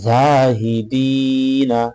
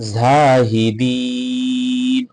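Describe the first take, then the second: First: The word ends with a final 'a' vowel. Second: The word ends on a bare final 'n'.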